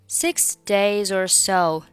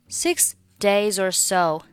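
The two takes are said the same way.

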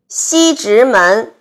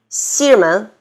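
First: Every syllable is clearly pronounced. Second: The middle syllable is swallowed.

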